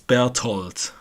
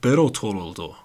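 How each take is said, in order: First: It has a plain t, without th. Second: It has an added final o vowel. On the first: The speaker calls it right. "not with the th. I'll say it's Berthold" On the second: The speaker calls it wrong. "Japanese people go like Bertoldo"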